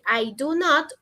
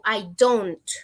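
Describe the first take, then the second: First: The negative is said in full, unreduced. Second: The negative is contracted to one syllable. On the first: "en vez de decir" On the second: "yo digo"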